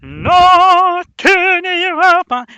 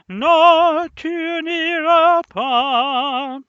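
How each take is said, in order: First: It is delivered in a raw, bestial way. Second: It is delivered in a gentle, lyrical way.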